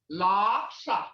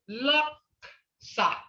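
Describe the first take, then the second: First: The word is said with a marked tone. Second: The word is said without the marked tone. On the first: It means liar. "hear that tone?" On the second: It means hoof. "Laksa is a hoof"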